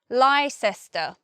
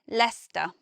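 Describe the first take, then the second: First: The word is said with three syllables. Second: The word is said with two syllables. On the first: The speaker calls it wrong. "the first guess would be Leicester, something like that" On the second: The speaker calls it right. "it's only two syllables and we simply say Leicester"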